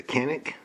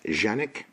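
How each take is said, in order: First: Said in the usual way. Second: Janik, no hard K at the start; proper pronunciation. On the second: Shown as a demonstration. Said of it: "properly pronounced Janik".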